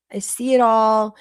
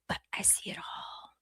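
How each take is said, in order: First: Said in the usual way. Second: Breathy ominous whisper. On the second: Acted. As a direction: whisper it like a secret. Ominous aside, then repeated aloud.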